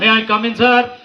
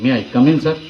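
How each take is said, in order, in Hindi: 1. इसे ज़ोर से और कठोर तरीके से कहा गया है। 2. इसे धीरे और विनम्रता से कहा गया है। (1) "तो टीचर भी डर जाएगा" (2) "तो उसे विनम्र होना चाहिए।"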